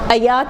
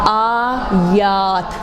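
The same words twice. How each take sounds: First: The first vowel is cut short. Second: The first vowel is held long. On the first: The speaker calls it wrong. "नहीं ... अब कोई छोटा बना ले, और ये बहुत कॉमन गलतियाँ है" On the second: The speaker calls it right. "अलिफ को लंबा करेंगे"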